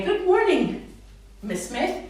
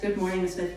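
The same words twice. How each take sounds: First: High, loud, sing-song hello to the teacher; bright modelled greeting. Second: Said in the usual way. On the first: Shown as a demonstration. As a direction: greet big and clear so the child copies. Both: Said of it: "So you say it like they would".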